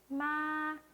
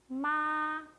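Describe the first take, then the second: First: It is said high, level and slightly long. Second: It is said high, level and slightly long.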